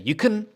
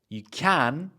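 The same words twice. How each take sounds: First: The word 'can' is said in a reduced weak form. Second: The word 'can' is said in its full strong form. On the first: The speaker calls it wrong. "it wouldn't sound good to say" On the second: The speaker calls it right. "at the end of a sentence, then we usually use the strong version"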